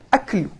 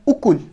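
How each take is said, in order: First: The word begins with an 'a' vowel. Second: The word begins with an 'u' vowel. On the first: The speaker calls it wrong. "bukan aklu" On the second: The speaker calls it right. "Yang tepat dibaca dengan dhammah ukul"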